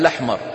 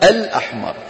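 First: The vowel links onto the l without a glottal stop. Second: A glottal stop comes before the vowel after al. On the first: The hamza's vowel has moved onto the lam. "نقلت حركة الهمزة إلى اللام فصارت" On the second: This is the original form of the word. "أصلها الأحمر"

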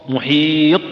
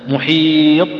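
Both takes have the same delivery.

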